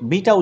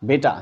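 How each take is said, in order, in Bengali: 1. প্রথম স্বরধ্বনিটি একটি দীর্ঘ 'ee' ধ্বনি। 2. প্রথম স্বরধ্বনিটি একটি 'ay' ধ্বনি। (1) "তোমরা এটাকে বিটা উচ্চারণ করতে পারো" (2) "বাট আমরা অভ্যস্ত না"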